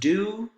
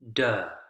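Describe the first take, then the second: First: The word has its full vowel, do. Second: The vowel is weakened, sounding like duh.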